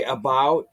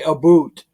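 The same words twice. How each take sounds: First: Said in the usual way. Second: Canadian accent. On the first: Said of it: "they don't say". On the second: Shown as a demonstration. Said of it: "they say".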